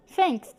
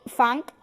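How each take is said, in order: First: Said in the usual way. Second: "funk" said for thanks, opening on an F. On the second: Shown as a demonstration. Teacher showing Cockney to learners, F for TH in "funk". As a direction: put an F in place of TH in "funk". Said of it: "replacement of the T H sound with".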